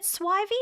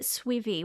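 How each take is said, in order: First: "Swivy" with first vowel as in "eye"; Swivy as "SWY-vee". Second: "Swivy" with first vowel as in "see"; Swivy as "SWEE-vee". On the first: Streamer checking a viewer's name, "Swivy" pronounced "SWY-vee". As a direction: say "Swivy" to rhyme with "ivy". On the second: Streamer checking a viewer's name, "Swivy" pronounced "SWEE-vee". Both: Shown as a demonstration. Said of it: "I see a word and I pronounce it".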